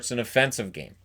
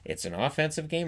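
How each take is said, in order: First: The stress is on the second syllable of offensive. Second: The stress is on the first syllable of offensive. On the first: The game was insulting to watch. "it's the same word, it's just how you say it" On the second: The game had a lot of attacking play. "it's the same word, it's just how you say it"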